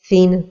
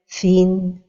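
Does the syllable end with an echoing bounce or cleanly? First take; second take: Bounce; Clean. First: The syllable ends with an echoing bounce. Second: The syllable ends cleanly without a bounce. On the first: The speaker calls it wrong. "donner al-qalqala vers la fin de prononciation" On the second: The speaker calls it right. "la prononciation correcte est"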